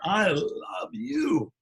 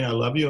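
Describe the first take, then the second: First: It is said tenderly, like to a lover. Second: It is said quickly, without much feeling.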